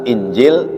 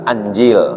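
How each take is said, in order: First: The word begins with an 'i' vowel. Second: The word begins with an 'a' vowel. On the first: "bikasril hamzati, dengan kasrah hamzahnya" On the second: "wa fathiha, dan fathah, ya, hamzahnya pula"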